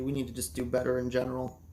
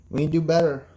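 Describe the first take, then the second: First: Said in the usual way. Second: Louder, punching better; stressed restatement, better hit hard; emphatic. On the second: Real, not acted. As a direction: hammer home the point.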